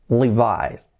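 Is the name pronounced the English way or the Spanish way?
English. The name is pronounced with English sounds. The speaker calls it right. "se pronuncia Levi's"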